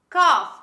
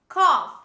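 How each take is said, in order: Both takes have the same delivery.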